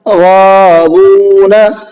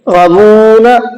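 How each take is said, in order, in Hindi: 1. दोनों लंबे स्वर लंबे ही बोले गए हैं। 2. पहला स्वर छोटा किया गया है। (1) "ये ठीक है।" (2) "गैन नहीं खिंचा।"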